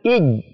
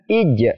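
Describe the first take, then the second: First: The final j is held and pressed. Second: The final j is released with a bounce. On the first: The speaker calls it wrong. "Tidak boleh ditekan" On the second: The speaker calls it right. "cara bacanya adalah ij ... ada pantulannya sedikit"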